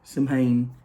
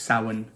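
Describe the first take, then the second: First: The word is read out just as it is spelled. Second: The word is said differently from its spelling. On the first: The speaker calls it wrong. "if you were to read it, um, actually says Samhain" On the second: The speaker calls it right. "However, it's not. It's Samhain"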